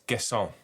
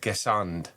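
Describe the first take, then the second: First: The name ends without a d sound. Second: The name ends with a d sound. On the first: The speaker calls it right. "It's Gesson" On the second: The speaker calls it wrong. "I was saying"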